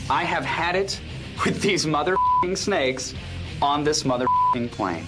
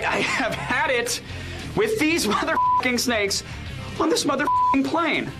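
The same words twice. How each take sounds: First: The line is delivered with little frustration. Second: The line is delivered with more frustration.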